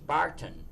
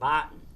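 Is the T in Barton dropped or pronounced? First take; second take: pronounced; dropped. First: The T sound is clearly pronounced. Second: The T sound is dropped. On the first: This is how outsiders say the name. "is any sane person. It's Barton" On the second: This is how locals say the name. "we pronounce it Barton. We forget the T"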